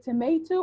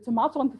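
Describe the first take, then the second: First: It is said with an American accent. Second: It is said with a British accent.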